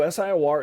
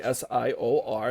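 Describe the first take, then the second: First: "sior" run together as "SIGH-or"; said as a word. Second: S I O R as "ess-eye-oh-ar"; name each letter of S I O R; spelled letter by letter. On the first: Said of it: "people will pronounce it as sior". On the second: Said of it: "It's actually S I O R". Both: Shown as a demonstration.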